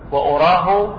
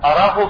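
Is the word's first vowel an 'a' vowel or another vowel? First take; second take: other; a. First: The first vowel is not an 'a' sound. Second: The first vowel is an open 'a' sound. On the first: I think him to be so. "وأراه معناه أظنه" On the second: I know him to be so. "الذي يترجح أن نقرأها بالفتح أراه، يعني لا أعلمه"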